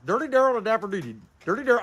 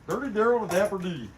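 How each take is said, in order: First: Tongue-twister speed run; tongue twister said fast. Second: Said in the usual way. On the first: Shown as a demonstration. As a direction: rattle the name off at speed. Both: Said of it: "Say that ten times real fast".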